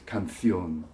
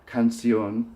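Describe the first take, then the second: First: It is said in a European Spanish accent. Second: It is said in a non-European Spanish accent.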